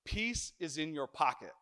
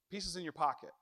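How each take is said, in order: First: "peace" stressed, falling tune; quoted motto. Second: "pocket" stressed, quieter; softer repeat. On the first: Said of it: "this preacher". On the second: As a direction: land on "pocket" softly. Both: Shown as a demonstration.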